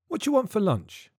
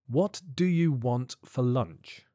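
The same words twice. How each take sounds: First: It is said fast with words contracted. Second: It is said slowly with every word full.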